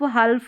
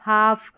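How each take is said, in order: First: The L sound is pronounced before the F. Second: The L sound is left out entirely. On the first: The speaker calls it wrong. "नहीं पढ़ेंगे" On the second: The speaker calls it right. "एल silent है"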